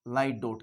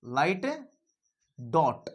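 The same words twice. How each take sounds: First: Said in the usual way. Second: light, pause, then dot; spaced dictation. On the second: Shown as a demonstration. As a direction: drill it word by word with a long gap. (Light और dot के बीच लंबा ठहराव, सिखाने वाले अंदाज़ में) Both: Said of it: "क्या करना है बेटा".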